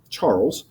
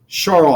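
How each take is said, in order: First: The name is said with an American English pronunciation. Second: The name is said with its original foreign pronunciation. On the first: This is the local adapted pronunciation. "We're in America" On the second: This is the name's actual pronunciation. "I think is how you actually pronounce the name"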